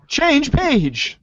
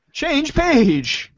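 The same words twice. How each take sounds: The two takes are said the same way.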